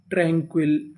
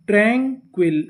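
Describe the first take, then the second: First: Said in the usual way. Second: "tranquil" split as train-quil, first part stressed; syllable by syllable. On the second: Shown as a demonstration. Teacher sounds out the word, "tranquil" in two distinct pieces. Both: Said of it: "meaning क्या बनी".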